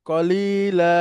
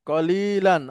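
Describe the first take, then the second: First: The word ends on a plain vowel. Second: The word ends with an n sound. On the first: The speaker stops at the end of a sentence. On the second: The speaker keeps going without stopping.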